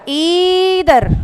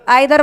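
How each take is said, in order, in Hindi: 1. पहला स्वर 'ee' ध्वनि है। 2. पहला स्वर 'eye' ध्वनि है। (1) "आई नाई की बजाय ई नी" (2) "आइदर वालों"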